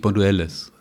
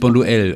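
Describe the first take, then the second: First: The name ends with an audible S sound. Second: The name ends without an S sound. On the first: The speaker calls it wrong. "und nicht Bonduelles" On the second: The speaker calls it right. "Man spricht das S im Französischen nicht"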